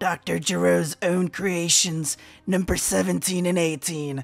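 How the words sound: It is read in a put-on character voice.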